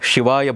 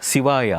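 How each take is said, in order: First: The word begins with a 'sh' sound. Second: The word begins without a 'sh' sound. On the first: "ಶಿ ಶಿವಾಯ ಬರಲ್ಲ" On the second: "ಶಿವಾಯ ಅಂತ ಹೇಳ್ತಾರೆ"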